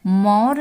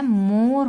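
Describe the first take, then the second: First: मोर read as मौर, with an open au vowel; teacher sounds मोर too wide, like मौर; wrong reading. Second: मोर said slowly with a closed ओ; मोर with a tight, rounded o, not au; correct reading. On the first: Teacher shows children the misspelled word, read as मौर. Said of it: "मोर नहीं होता है". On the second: Teacher gives children the right sound, मोर with ओ. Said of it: "मोर होता है". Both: Shown as a demonstration.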